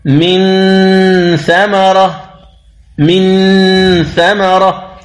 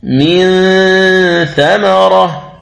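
First: من ثمرة with the ن pressed and sounded clearly; wrong clear n. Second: من ثمرة with the ن hidden, slow and nasal. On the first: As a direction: lay the tongue on the ن of من. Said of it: "هذا خطأ". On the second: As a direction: hum the ن of من into ثمرة. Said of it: "والصواب". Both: Shown as a demonstration.

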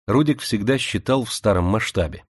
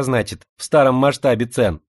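First: Said in the usual way. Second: "в старом масштабе" with lisped s, raised voice; slushy sh for s. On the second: Acted. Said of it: "своим шепелявым голоском".

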